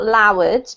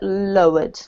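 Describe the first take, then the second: First: The first vowel sounds like the one in loud. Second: The first vowel sounds like the one in low. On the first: The speaker calls it wrong. "Not lowered, because lowered sounds a bit like loud" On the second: The speaker calls it right. "but lowered"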